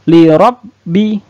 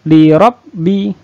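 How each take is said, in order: The two takes are said the same way.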